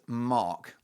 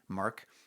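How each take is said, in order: First: It is said in a British accent. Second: It is said in a Canadian accent, mouth mostly closed. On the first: "it's Mark, like that" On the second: "In Canada, they say it like that"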